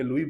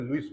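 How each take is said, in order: First: The name ends on a vowel, without s. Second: The name ends with an s sound. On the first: This is how Hindi speakers say it. "Hindi में लुई बोलेंगे" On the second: This is how English speakers say it. "English में लुईस बोलते हैं"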